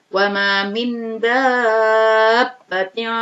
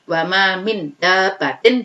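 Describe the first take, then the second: First: The vowel in 'dabbatin' is drawn out at length. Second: The vowel in 'dabbatin' is held briefly. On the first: The speaker calls it right. "Jadi dibaca panjang" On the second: The speaker calls it wrong. "Jadi bacanya bukan wa ma min dabbatin, bukan"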